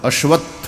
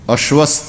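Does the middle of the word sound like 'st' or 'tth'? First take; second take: tth; st. First: The middle cluster is pronounced with a tth sound. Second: The middle cluster is pronounced with an s sound. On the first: The speaker calls it right. "અશ્વત્થ સ અડધો નહીં" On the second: The speaker calls it wrong. "અશ્વસ્થ ન બોલાય"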